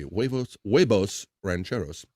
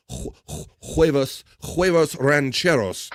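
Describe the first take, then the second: First: Mild Spanish accent. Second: "huevos rancheros" said with a Spanish accent, "huevos" as hweh-vos, rolled Spanish vowels, slowed down; careful Spanish "huevos rancheros" at a slow pace. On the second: Host tries the dish name with a proper Spanish accent. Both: Shown as a demonstration. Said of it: "let me say this with a proper accent".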